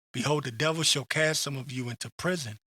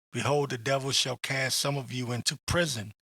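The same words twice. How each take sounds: No difference in how they are said.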